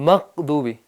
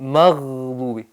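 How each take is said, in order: First: The middle consonant is a deep stop. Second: The middle consonant is a continuous fricative. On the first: The speaker calls it wrong. "कौफ से अदा करते हैं ये गलत है" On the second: The speaker calls it right. "यहाँ हवा जारी रहना लाजमी है"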